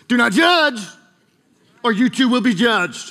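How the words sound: It is said in a sassy, defiant tone. "The only way I've ever seen someone say it is with attitude"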